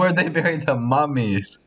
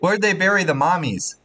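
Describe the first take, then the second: First: The last word has the vowel of 'mum'. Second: The last word has the vowel of 'mom'. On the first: The speaker calls it right. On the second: The speaker calls it wrong. "It's not like"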